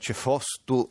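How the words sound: The middle vowel is o, with an s. This is the form used toward Carnia. "cefostu verso la Carnia"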